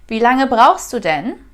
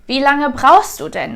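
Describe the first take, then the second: First: The tone is calm and neutral. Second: The tone is annoyed and impatient. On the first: The speaker simply wants information. "As if I just want to ask, how long do you still need? Just for my information" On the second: The speaker is impatient with the other person. "because of my tone of voice and the word denn, it adds annoyance or impatient"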